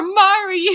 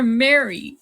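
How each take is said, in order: First: "Mari" with an open "ah" vowel; corrected Mari. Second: "Mary" with an "eh" vowel, as in "merry"; mispronounced Mary. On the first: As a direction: say "Mari" as "MAH-ree". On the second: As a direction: say "Mary" as "MAIR-ee". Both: Real, not acted. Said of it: "now I'm pronouncing it wrong".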